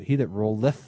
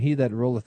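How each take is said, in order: First: The final -eth of rolleth is fully pronounced. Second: The final -eth of rolleth is barely pronounced. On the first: The speaker calls it wrong. "You don't say" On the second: The speaker calls it right. "See how I said rolleth? That last part you don't pronounce as much"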